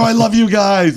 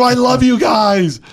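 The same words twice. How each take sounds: First: High, loud declaration of love to a booth crew; high, loud fan gush; overexcited gush. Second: Even higher, louder and slow, drawn-out fan cry; high, slow, loud superfan cry; over the top gush. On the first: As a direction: gush like a crazed superfan. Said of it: "I had 'em worried". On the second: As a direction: lay it on thick, doubling down. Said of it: "So I go". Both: Retold or imitated.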